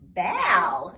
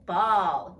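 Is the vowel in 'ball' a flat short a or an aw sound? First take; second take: short a; aw. First: The vowel is a flat short a sound. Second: The vowel is an open aw sound. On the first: The speaker calls it wrong. "Otherwise, it'd be ball, and that's not a thing" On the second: The speaker calls it right. "So it's ball"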